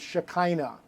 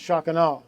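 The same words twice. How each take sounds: First: The word is said with an Americanized pronunciation. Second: The word is said with a traditional, non-American pronunciation. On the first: The speaker calls it wrong. "The American bastardization of it" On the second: The speaker calls it right. "it's actually pronounced"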